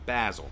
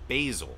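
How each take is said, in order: First: It is said with a British pronunciation. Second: It is said with an American pronunciation.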